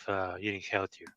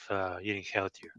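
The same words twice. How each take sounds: The two takes are said the same way.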